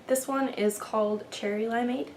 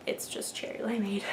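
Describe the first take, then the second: First: Rising question tune on "Limeade"; accidental questioning lilt on "Cherry Limeade". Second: "Cherry Limeade" with a flat falling close; firm correction, tune falls on "Limeade"; plain statement. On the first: Real, not acted. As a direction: ends "Cherry Limeade" going up as if asking. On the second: Shown as a demonstration. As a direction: say "Limeade" settling down, not asking. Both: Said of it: "I said that like a question".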